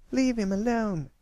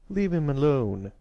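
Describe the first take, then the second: First: Put-on very high-pitched protective child's shout; shouting girl. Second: Put-on raised older-brother command; angry protective shout. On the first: A narrator's reading. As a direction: cry out in a high little-girl voice. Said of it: "Apple Bloom shouted". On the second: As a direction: order the bullies off, voice up. Angry older brother rushing over.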